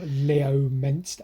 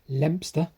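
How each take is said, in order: First: The name is said with four syllables. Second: The name is said with two syllables. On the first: "as I pronounce it" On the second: "Apparently, Leominster is pronounced Lempster"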